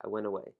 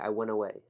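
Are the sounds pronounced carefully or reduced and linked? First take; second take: reduced; reduced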